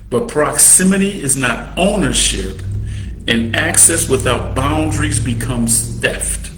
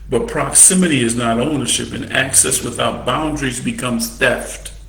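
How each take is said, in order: First: It is said slowly. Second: It is said fast.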